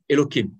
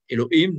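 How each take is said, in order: First: The middle consonant is a k sound. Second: The middle consonant is an h sound. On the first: This is the form used in everyday speech to avoid saying the name in vain. "nous le remplaçons généralement par un Que en français" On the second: This is the form read in the biblical text. "on ne dit pas Elohim"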